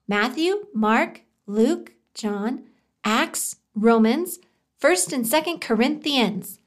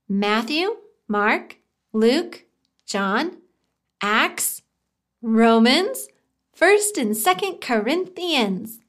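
First: The list is said a little faster. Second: The list is said at a normal pace.

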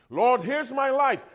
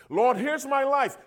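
The two takes are said the same way.

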